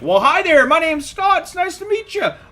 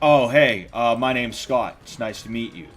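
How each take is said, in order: First: It is said with over-excited friendliness. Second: It is said in a calm, low-key way.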